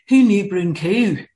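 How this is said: It is said in a Scottish accent.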